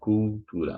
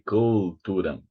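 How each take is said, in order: First: The first syllable has a doubled u sound. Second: The first syllable has a single plain u sound. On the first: The speaker calls it right. "like with two u two u sounds" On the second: The speaker calls it wrong. "We don't say cultura"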